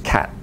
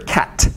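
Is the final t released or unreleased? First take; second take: unreleased; released. First: The final t is held without release. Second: The final t is audibly released.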